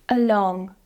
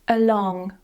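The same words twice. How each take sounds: Both takes have the same delivery.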